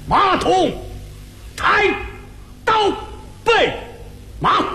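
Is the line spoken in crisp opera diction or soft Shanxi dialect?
opera diction. It is spoken in hard, crisp Peking opera diction. The speaker calls it right. "是京字京韵 ... 您听这词句多么硬"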